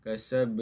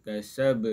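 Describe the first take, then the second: The two takes are said the same way.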